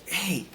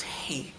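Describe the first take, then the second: First: Said in the usual way. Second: Whispered hey, no voice; soft whispered greeting to a patient. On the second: Retold or imitated. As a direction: breathe the hey like the nurse did. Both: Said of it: "She goes like that".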